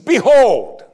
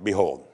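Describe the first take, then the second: First: The word is said with excitement. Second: The word is said flatly, without excitement.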